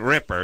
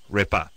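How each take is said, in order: First: The name ends with an 'er' sound. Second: The name ends with an 'ah' sound. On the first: The speaker calls it wrong. "you're mispronouncing the person's last name. It's not Ripper" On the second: The speaker calls it right. "It's Kelly Ripa"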